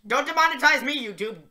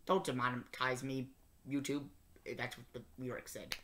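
First: High fast plea. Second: Muttered under the breath; low, soft plea to the camera; quiet aside. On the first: Shown as a demonstration. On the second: Real, not acted.

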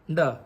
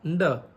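Both takes have the same delivery.

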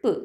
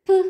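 First: "p" said lightly, without stress; unstressed P. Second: "p" with a strong puff of air; forceful, breath-released "p" sound; aspirated stressed P. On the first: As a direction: let "p" out gently, unstressed. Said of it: "and unstressed". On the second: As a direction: hit "p" hard, aspirated. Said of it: "has aspirated stressed". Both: Shown as a demonstration.

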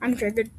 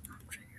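First: Said in the usual way. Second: Breathy whisper with no voice. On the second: Real, not acted. Gamer whispering his frustration to viewers, hushed. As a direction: mutter it under your breath.

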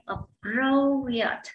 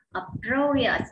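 First: "appropriate" slowly, with PRO drawn out; slow teaching demo of "appropriate", long stressed PRO; second-syllable stress. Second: Said in the usual way. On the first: Shown as a demonstration. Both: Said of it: "nhấn vào âm thứ hai".

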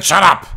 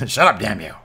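First: Louder, higher barked order to the crowd; wrestler yells. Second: Said in the usual way. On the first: Acted. Wrestler silencing the crowd on the mic, loud shout. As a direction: yell it down the mic.

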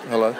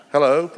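First: Said in the usual way. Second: A light, higher posh English hello with a rising end; imitating a posh English secretary answering, pitched up; posh English accent. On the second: Palace secretary answers the phone in a mock posh English accent. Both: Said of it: "I can't do a very posh Pommy accent".

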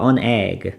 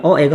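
First: "An egg" with an n before the vowel; linking n. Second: "a egg" with no n between the vowels; awkward vowel clash. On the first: Teacher models for students to repeat, "An egg" with linking n. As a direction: say "An egg", the n bridging into egg. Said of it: "발음 때문에 a egg가 아니라". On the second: Teacher shows students the hard-to-say form, "a egg" without linking n. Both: Shown as a demonstration.

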